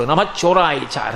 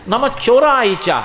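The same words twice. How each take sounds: First: Lower, slow mock quoting of the welcome; "నమ చోరాయిచ" dropped low and dragged out; scornful echo. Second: Higher, drawn-out reverent greeting; lifted, slow acted welcome of "నమ చోరాయిచ"; delighted welcome. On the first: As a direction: throw his greeting back as a reproach. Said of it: "రండి రండి స్వాగతం అంటావేమిటి". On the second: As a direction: greet them with happy reverence, stretched out. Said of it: "పరమ సంతోషం, రండి స్వాగతం".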